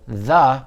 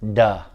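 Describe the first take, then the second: First: It starts with a soft th sound. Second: It starts with a hard d sound. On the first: The speaker calls it right. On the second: The speaker calls it wrong.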